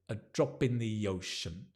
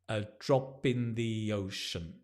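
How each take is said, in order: First: The words run together as one sound. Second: The same.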